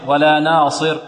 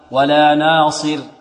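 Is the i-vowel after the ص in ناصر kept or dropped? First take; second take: dropped; kept. First: The vowel after the ص is not clearly kept. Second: The vowel after the ص is clearly kept. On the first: The speaker calls it wrong. "لا نقول" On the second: The speaker calls it right. "المحافظة على كسر الصاد"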